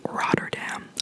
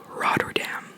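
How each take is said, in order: No difference in how they are said.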